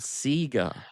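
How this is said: It is said with a British accent. "when I was a kid, we thought it was called Sega"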